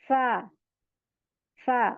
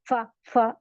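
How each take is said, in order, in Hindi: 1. अक्षर नरमी से, आसानी से और धीरे बोला जाता है। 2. अक्षर सख्ती और ज़ोर से बोला जाता है। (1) "बिल्कुल इजीली पढ़ते हैं... इसको धीमा पढ़ना होता है" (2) "ये इतना हम स्ट्रांगली नहीं पढ़ सकते, फा फा ऐसे नहीं पढ़ेंगे"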